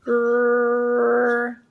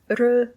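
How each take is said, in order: First: The vowel is held for longer. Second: The vowel is held briefly.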